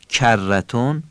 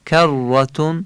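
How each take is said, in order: First: The k is pronounced the soft Persian way. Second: The k is pronounced sharp, the Arabic way. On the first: The speaker calls it wrong. "کرتون فارسیه" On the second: The speaker calls it right. "کرتون عربیه"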